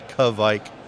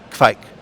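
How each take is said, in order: First: The K and V are spaced apart. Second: The K and V blend into one sound. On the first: The speaker calls it wrong. "we tend to look at it as K V and try to space them out" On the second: The speaker calls it right. "where it's just kvike"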